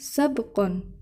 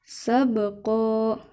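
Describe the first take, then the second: First: The word ends with an n sound. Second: The word ends with a long a vowel. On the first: The speaker calls it wrong. "bukan sabqon" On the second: The speaker calls it right.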